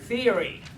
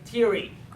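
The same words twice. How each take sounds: First: It begins with a th sound. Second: It begins with a t sound. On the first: The speaker calls it right. "rather than theory" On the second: The speaker calls it wrong. "you end up saying theory"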